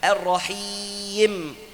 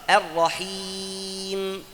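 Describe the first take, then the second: First: The long vowel is pushed hard before the m. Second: The long vowel is held steady before the m. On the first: The speaker calls it wrong. "gak perlu kita tekan sebelum nun atau mim, gak perlu ar-rahim, jangan, itu salah" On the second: The speaker calls it right. "harus madnya stabil"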